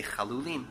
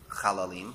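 First: "chalulim" with an oo in the middle; recommended pronunciation. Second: "chalalim" with an ah in the middle; rejected pronunciation. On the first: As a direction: say "chalulim" with a second-syllable oo. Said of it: "We should say chalulim". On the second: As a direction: say "chalalim" with a second-syllable ah. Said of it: "Rashi says we shouldn't say". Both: Shown as a demonstration.

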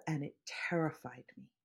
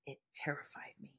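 First: Said in the usual way. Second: Breathless whisper of remembered fear. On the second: Retold or imitated. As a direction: whisper it as if still scared. Repeat of the line, whispered.

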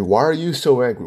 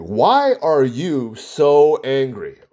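First: Said in the usual way. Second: Drawn out slowly, word by word; slow probing question. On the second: Retold or imitated. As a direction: ask it slowly like a probing therapist. Psychologist asking patient, repeated.

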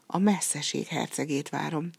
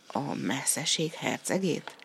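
First: Said in the usual way. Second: Slow, rising question on "hercegét"; questioning echo. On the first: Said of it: "felelte a hercegnő". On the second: A narrator's reading. Giant echoes the princess's answer, slow questioning echo. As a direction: echo "hercegét" slowly, lifting the end into a question.

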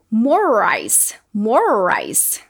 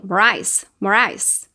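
First: "More rice" with a long, stretched r linking the words. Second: "more rice" said quickly, the r swallowed; rushed more rice. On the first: Teacher stretching the r sound for students. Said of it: "um er mais prolongado". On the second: Teacher showing how fast speech blurs the words. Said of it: "se eu falar bem rapidinho". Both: Shown as a demonstration.

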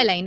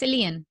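First: Said in the usual way. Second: "Elaine" said as EE-lee-un; guest's pronunciation. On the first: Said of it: "So it's not". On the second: Shown as a demonstration. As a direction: make "Elaine" rhyme with "alien". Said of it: "So it's not Elaine".

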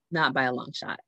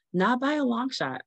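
First: Said in the usual way. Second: Pitched well up for emphasis; high emphatic denial. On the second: Real, not acted. Mother on her ruined shopping plans, high emphatic denial. Repeats the line, first time high.

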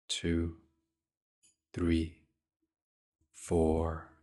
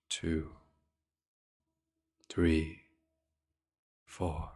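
Both takes have the same delivery.

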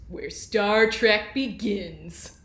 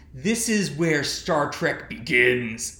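First: Slow, booming TV promo announcer; UPN announcer voice. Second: Slow promo announcer read; dramatic TV promo voice; UPN announcer voice. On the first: Pretend. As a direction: drag it out like a network promo. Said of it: "can I get the, the right, um, U P N announcer voice". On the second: Retold or imitated. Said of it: "U P N announcer voice".

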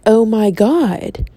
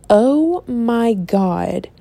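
First: Drawn-out slow oh my God, in awe; slow awed gasp. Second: Drawn-out slow oh my God; slow awed gasp. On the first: Talking to herself about the book, slow awestruck gasp. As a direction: stretch it out like you're amazed. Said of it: "the other half of me was like". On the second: Starting to read Twilight, slow amazed gasp. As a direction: let it hang, amazed. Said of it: "I was like". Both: Retold or imitated.

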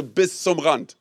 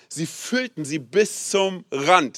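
First: "bis zum Rand" said slowly and evenly; prompt for the crowd. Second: Slow, weighty reading. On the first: Pastor leads the church in repeating "bis zum Rand", slow and even. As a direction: spell out "bis zum Rand" for the congregation to echo. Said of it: "Sag mal bitte". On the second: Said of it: "Sag mal bitte, „bis zum Rand". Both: Shown as a demonstration.

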